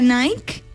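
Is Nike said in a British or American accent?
British. It is said the British way.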